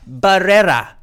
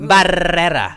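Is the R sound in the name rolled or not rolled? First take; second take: not rolled; rolled. First: The R sounds are plain, not rolled. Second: The R sounds are strongly rolled.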